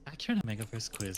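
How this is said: It is said in a put-on voice.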